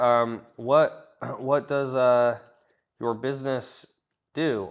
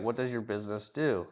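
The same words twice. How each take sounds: First: Halting, filler-laden question; awkward, unsure asking of what does your business do; hesitant version. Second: Said in the usual way. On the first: Shown as a demonstration. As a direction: stumble through it with ums and a throat clear. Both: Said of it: "Or you're like, you're like".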